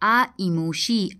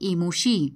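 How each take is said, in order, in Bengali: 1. অংশগুলো আলাদা শব্দ হিসেবে বলা হয়। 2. ধ্বনিগুলো মিশে একটি যুক্ত শব্দ হয়ে যায়। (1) "সেগুলি ভাগ করে করে আমরা উচ্চারণ করলাম" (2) "এগুলি সন্ধি সমাস যুক্ত ছিল"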